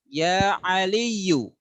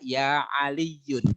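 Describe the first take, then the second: First: The name ends in a plain u sound. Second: The name ends in an un sound. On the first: The speaker calls it right. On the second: The speaker calls it wrong.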